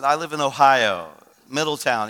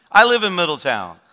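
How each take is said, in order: First: Said in the usual way. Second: Louder, astonished claim of the same town; emphatic, surprised reply; surprised echo. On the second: Retold or imitated. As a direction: imitate a stranger amazed at the coincidence. Stranger astonished by shared hometown.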